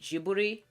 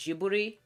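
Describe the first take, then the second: First: Ghibli is pronounced the way it is said in Japan. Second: Ghibli is pronounced the way it is said in Japan.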